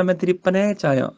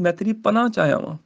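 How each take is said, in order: First: ਪਨਾਹ said as paneh, the wrong way; ਪਨਾਹ with the final vowel clipped short; wrong panah. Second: ਪਨਾਹ said as panah, its last vowel open; ਪਨਾਹ with the long a kept open at the end; how we say panah. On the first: Teacher shows students the wrong ਪਨਾਹ. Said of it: "ਕੋਈ ਨਹੀਂ ਕਹਿੰਦਾ". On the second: Teacher shows students how they say ਪਨਾਹ. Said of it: "ਅਸੀਂ ਕਹਿੰਦੇ". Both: Shown as a demonstration.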